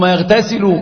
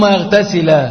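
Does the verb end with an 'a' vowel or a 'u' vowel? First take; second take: u vowel; a vowel. First: The verb ends with a short u vowel. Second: The verb ends with a short a vowel. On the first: The washing begins a new statement. "وبالرفع" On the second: The washing is joined to the urinating. "ثم يغتسل بالنصب"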